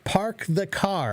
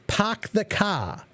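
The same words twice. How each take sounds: First: It is said in the speaker's everyday regional accent. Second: It is said in a thick Boston accent. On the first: "where I live, we say" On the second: "the Boston accent is a very thick accent"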